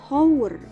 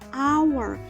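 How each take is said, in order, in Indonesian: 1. Kata ini dimulai dengan bunyi h. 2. Kata ini dimulai dengan bunyi vokal. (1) "dibacanya bukan hour" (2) "tapi hour ... karena bunyinya a"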